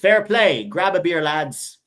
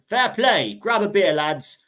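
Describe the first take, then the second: First: It is read in the speaker's ordinary accent. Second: It is read in a put-on English accent.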